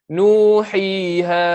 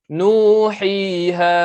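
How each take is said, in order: Both takes have the same delivery.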